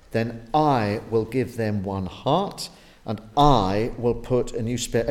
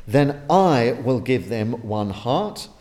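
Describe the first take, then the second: First: "I" lifted and held in "Then I will give them one heart"; stress on I. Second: "I" rising and held, the line slow and firm; slow repeat stressing "I" in "Then I will give them one heart". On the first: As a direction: punch "I" every time it comes. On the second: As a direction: hit "I" harder this time, slowly. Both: Shown as a demonstration. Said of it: "I'm emphasizing I".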